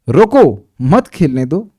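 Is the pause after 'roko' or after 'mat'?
after roko. The pause comes after 'roko'.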